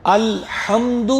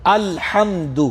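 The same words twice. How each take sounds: First: الحمد with a plain breathy ہ instead of ح; deliberately mispronounced; wrong ha. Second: الحمد with the ح from the mid throat; careful recitation; correct ha. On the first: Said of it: "دوسرا آ گیا الحمد". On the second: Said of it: "اس کو کہتے ہیں وسط حلق". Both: Shown as a demonstration.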